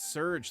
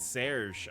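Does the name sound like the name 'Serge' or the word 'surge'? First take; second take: surge; Serge. First: It sounds like the English word surge. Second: It sounds like the French name Serge. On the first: The speaker calls it right. "like Power Surge" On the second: The speaker calls it wrong. "I've been pronouncing it as Lieutenant Serge all this time"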